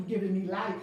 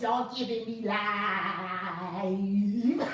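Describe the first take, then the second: First: Said in the usual way. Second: Hugely drawn-out comic impression, breaking into laughter; Tiffany Haddish. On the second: Host channels a comedian for her live viewers, hammed-up impression. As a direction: stretch the last word out long, laughing. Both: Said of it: "in my Tiffany Haddish voice".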